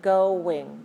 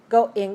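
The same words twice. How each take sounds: First: A w glide links the two syllables. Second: A glottal stop separates the two syllables. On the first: The speaker calls it right. "whoa, whoa, whoa, in between" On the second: The speaker calls it wrong. "You're putting a glottal stop"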